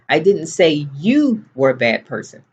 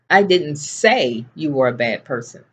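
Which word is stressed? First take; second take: you; say. First: The word you carries the main stress. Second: The word say carries the main stress. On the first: It was said about someone else. "I didn't say it about you" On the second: It was thought but not spoken aloud. "I didn't say it, but I was certainly thinking it"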